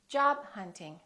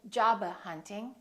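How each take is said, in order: First: The b is held without release. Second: The b is released before the next word. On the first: The speaker calls it right. "hold it, don't release the final stop" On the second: The speaker calls it wrong. "Don't say job hunting"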